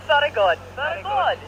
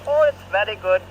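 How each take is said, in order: First: Higher, laughing mock Irish accent on very good; laughing fake Irish. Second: A light, badly faked Irish accent. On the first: Friends laughing at his bad Irish accent, higher and hammed-up. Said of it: "worst Irish accent I've ever heard". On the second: Retelling what Sean said in a badly faked Irish accent. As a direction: imitate Sean's Irish accent, half-hearted. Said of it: "in his Irish accent".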